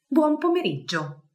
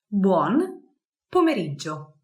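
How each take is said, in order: First: Said in the usual way. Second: Buon and pomeriggio said apart with a pause; split into words. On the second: Shown as a demonstration. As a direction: break Buon from pomeriggio for learners.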